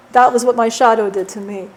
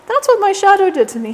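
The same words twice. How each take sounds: First: Said in the usual way. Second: Higher and louder on the repeat; he stresses what his shadow did to him; emphatic repeat. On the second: Real, not acted. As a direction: push the line up in pitch with indignation.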